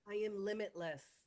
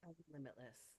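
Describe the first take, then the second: First: It is said loudly. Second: It is said quietly.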